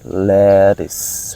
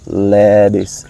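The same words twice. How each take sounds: First: The middle consonant is a clear T sound. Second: The middle consonant is a soft D sound. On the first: "in a real English, they would say lettuce, lettuce. Okay, the sound of T" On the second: "in American pronunciation, the T become D. That's why I say lettuce"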